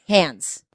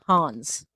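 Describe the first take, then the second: First: The name sounds like the word 'hands'. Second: The name is said with a broad 'ah' vowel. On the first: The speaker calls it right. "like hands" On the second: The speaker calls it wrong. "I'm gonna keep saying it wrong"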